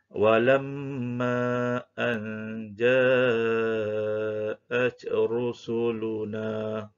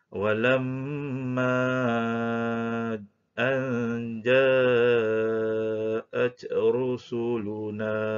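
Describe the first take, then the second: First: The long vowel is held for two counts. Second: The long vowel is held for four counts. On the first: "kita mula baca dengan kadar dua harakat" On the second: "Dibaca dengan empat harakat"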